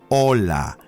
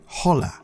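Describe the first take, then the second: First: The word begins with no h sound. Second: The word begins with an audible h sound. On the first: The speaker calls it right. "You say hola. The H is silent" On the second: The speaker calls it wrong. "You do not say hola"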